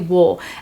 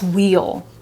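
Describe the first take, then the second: First: The word is reduced to a short oo sound. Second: The word is said fully with a long ee vowel. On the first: "But ask me if I ever say wheel. Uh, no, I say wool" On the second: "how do you pronounce this word? I'll say, oh, that's wheel"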